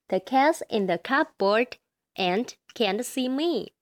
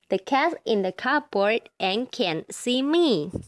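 First: It is read faster. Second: It is read very fast.

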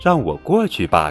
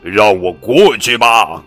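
First: It is said in a mother's voice. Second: It is shouted in a monster's voice.

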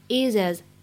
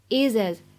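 First: The h drops and the words link into one. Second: The same.

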